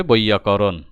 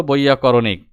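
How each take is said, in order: First: বৈয়াকরণ ending in -on, no -ik; বৈয়াকরণ as the corrected short form; correct word form. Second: বৈয়াকরণিক with an extra -ik ending; বৈয়াকরণিক as the mistaken long form; wrong word form. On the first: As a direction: say বৈয়াকরণ, stopping at "koron". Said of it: "সঠিক শব্দ হবে". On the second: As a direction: say বৈয়াকরণিক, closing on a wrongly added "ik". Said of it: "এই শব্দটা ভুল". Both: Shown as a demonstration.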